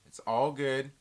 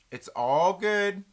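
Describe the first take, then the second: First: Said in the usual way. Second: Drawn-out high It's all good; a sing-song reassurance, slow and loud; slow, higher, louder. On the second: Shown as a demonstration.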